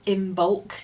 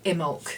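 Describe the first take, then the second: First: The b sound is clearly pronounced. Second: The b sound is left silent.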